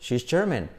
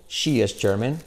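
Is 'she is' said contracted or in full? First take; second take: contracted; full. First: She and is are joined into one syllable. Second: She and is are said as separate words.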